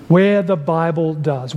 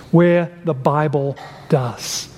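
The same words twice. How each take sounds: First: Where the Bible does, slower, each word weighted; slowed, deliberate echo of the phrase; slow emphatic repeat. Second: Said in the usual way. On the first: Shown as a demonstration. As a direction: drive home "Where the Bible does" slowly.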